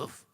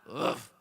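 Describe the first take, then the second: First: It is said quietly. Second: It is said louder.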